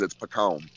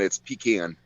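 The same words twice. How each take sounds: First: Pecan said puh-KAHN, weak first syllable and an open ah; pecan the way he knows it is said; Southern pecan. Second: Pecan said PEE-can, stressed on the first syllable; pecan the way most people say it; northern pecan. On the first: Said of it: "but I know what it is". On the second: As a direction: say pecan as pee-KAN with a long flat a. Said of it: "they'll say pecan in that tone". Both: Shown as a demonstration.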